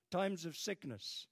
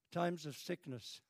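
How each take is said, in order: Both takes have the same delivery.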